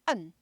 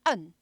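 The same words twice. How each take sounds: First: The syllable is barked from the throat. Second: The syllable is barked from the throat.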